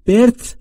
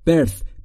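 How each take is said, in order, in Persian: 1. صدای آخر "th" دندانی نیست. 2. صدای آخر یک "th" دندانی است. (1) "birth هم نیست" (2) "میشه birth"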